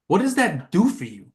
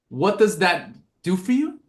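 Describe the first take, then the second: First: The stress is on "does". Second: The stress is on "you".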